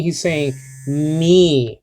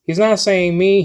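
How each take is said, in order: First: Me said slow and drawn out, weighted; stress on me. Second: Said in the usual way. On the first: Shown as a demonstration. Teacher showing the class the emphatic me. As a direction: lean hard on the word me.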